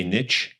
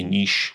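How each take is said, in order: First: NICHE with short i, ending in tch; niche as "nitch". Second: NICHE with long ee, ending in sh; niche as "neesh". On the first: Host explains the younger way, niche as "nitch". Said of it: "when you're younger, you say niche". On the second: Host names what young people avoid, niche as "neesh". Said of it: "you don't wanna say niche when you're younger". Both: Shown as a demonstration.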